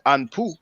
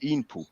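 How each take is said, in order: First: The name begins with an 'a' vowel. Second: The name begins with an 'e' vowel. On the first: This is a later, altered form of the name. The speaker calls it wrong. "some people say Anpu" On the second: This is the original form of the name. The speaker calls it right. "really it's supposed to be Inpu"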